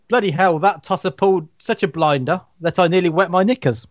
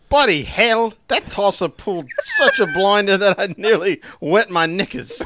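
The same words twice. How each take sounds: First: Lightly posh English reading; a hint of a posh Brit; posh British accent. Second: Loud, high mock Cockney; hammed-up London geezer voice; Cockney accent. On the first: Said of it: "I need to do it in a posh voice now". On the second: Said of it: "Dick Van Dyke had joined us".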